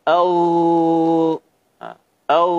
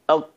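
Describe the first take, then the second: First: The consonant is drawn out with exaggerated friction. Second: The consonant is cut off with a hard stop. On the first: "terlalu berlebihan" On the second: "Suaranya dibaca dengan syiddah"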